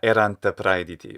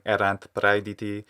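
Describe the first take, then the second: First: An extra vowel is added after the final t. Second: The word ends in a bare t, no extra vowel. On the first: The speaker calls it wrong. "Avoid that kind of little syllable" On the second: The speaker calls it right. "Make sure you're saying erant praediti without saying"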